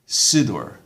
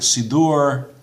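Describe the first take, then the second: First: The stress is on the first syllable. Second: The stress is on the last syllable. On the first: "on the second last, um, second last syllable" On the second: This is the modern Israeli pronunciation. "emphasis on the last syllable"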